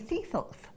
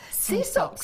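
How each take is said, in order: First: The s sounds are lisped like th. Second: The s sounds are said clearly.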